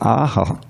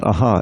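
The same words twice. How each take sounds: First: The A vowel is clearly held long. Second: The A vowel is cut short. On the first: The speaker calls it right. "you have to articulate the long A" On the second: The speaker calls it wrong. "It's not aha"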